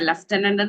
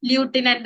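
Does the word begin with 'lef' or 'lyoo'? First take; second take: lef; lyoo. First: The word begins with 'lef', as normally spoken. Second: The word begins with 'lyoo', following the spelling. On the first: This is how the word is normally pronounced. "ലഫ്റ്റനന്റ് എന്നാണ് നമ്മൾ വായിക്കുന്നതെങ്കിലും" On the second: This follows how the word is written. "ല്യൂട്ടിനന്റ് എന്നാണ് എഴുതുന്നത്"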